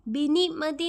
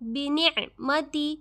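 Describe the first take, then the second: First: The 'ain sound in the middle is dropped. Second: The 'ain sound in the middle is clearly heard. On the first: The speaker calls it wrong. "बिनिअमति नहीं है" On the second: The speaker calls it right. "बिनिअमति आइन पता चलना चाहिए"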